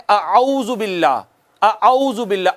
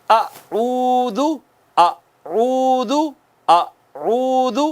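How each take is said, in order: First: اعوذ said as a flat اَعوذ without rounding the lips; wrong pronunciation. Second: اعوذ drawn out very slowly, lips rounded on the و; Quranic recitation. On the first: Teacher imitates common learners, careless unrounded اعوذ. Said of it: "وہ کہتے ہیں". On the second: Teacher models tajweed for students, slow chanted recitation. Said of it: "آپ نے یوں پڑھنا ہے". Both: Shown as a demonstration.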